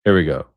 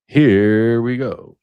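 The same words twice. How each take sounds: First: Said in the usual way. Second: Drawn-out hype. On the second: Real, not acted. Teasing the clip.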